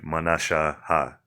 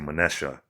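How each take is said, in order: First: A final 'ha' syllable is pronounced at the end. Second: The word ends without a final 'ha' syllable. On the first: The speaker calls it wrong. "you don't say manasha ha" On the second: The speaker calls it right. "You just say manesha"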